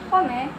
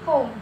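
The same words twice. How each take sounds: First: A final vowel sound is pronounced after the m. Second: No vowel sound is pronounced after the m. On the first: The speaker calls it wrong. "Jadi bukan" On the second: The speaker calls it right. "huruf E-nya itu tidak diucapkan. ... tapi"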